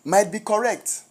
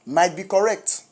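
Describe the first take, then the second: No difference in how they are said.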